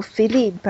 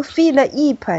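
First: Philippe as "fi-lip", l opening the second syllable; correct syllable split. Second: Philippe broken as "fil-ip", l cut off from the second vowel; wrong syllable split. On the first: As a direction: say Philippe slowly as "fee-leep". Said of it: "还是读Philippe呀". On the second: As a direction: say Philippe slowly as "fil, eep". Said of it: "我是读Philippe呀". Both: Shown as a demonstration.

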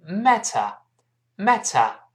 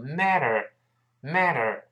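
First: British "matter" with crisp t and no r; British non-rhotic "matter"; British pronunciation. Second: American flapped t in "matter"; American pronunciation. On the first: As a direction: say "matter" slowly as "mat-tuh", British style. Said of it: "英国人读出matter". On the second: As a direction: say "matter" as "madder", American style. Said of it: "中间这个T读快之后会轻轻浊化一下". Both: Shown as a demonstration.

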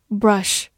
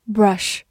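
Both takes have the same delivery.

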